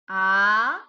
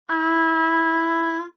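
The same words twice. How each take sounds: First: It is said with the second tone. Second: It is said with the first tone. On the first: "The second tone is ah" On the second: "The first tone is ah"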